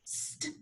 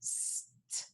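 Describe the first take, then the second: First: S running straight into T as st; blended sounds. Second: S, then a clipped T, apart; separate sounds. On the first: Teacher showing the class one sound, quickly blended st. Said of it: "mix them together super quickly". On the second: Teacher showing the class two sounds to mix, one by one. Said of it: "instead of saying them one by one". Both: Shown as a demonstration.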